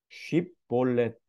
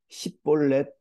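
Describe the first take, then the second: First: The word begins with an sh sound. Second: The word begins with an s sound. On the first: The speaker calls it right. "쉽볼렛 해봐" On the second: The speaker calls it wrong. "하지 못하는 사람들"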